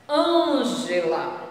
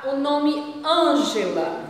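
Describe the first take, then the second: First: "Ângela" slow, closed nasal stressed Â; closed â demo. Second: "Ângela" slow with closed nasal Â; closed â demo. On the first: Teacher repeating the name, slow closed Â. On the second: Teacher modelling a name for pupils, slow. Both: Shown as a demonstration. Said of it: "É um som fechado".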